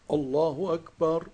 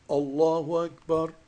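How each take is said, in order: The two takes are said the same way.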